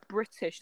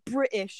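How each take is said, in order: First: The middle T is clearly pronounced. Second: The middle T is dropped. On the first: The speaker calls it right. "that's the actual language" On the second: The speaker calls it wrong. "that's not the actual language"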